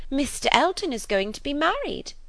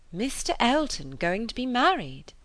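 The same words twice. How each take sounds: First: High, loud breaking of news; gushing, triumphant news-telling; excited announcement. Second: Higher, incredulous echo of the news; mildly astonished query; stunned question. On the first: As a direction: burst out with the big gossip. Gossip bursts out her news. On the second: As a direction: take it in with surprise. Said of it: "as soon as she could speak". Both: A narrator's reading.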